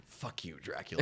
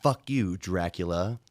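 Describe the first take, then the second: First: Low, soft vampire growl; vampire snarl. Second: Said in the usual way. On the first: Acted. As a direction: snarl it at Dracula. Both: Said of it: "I'll do a transformation and then I'll go".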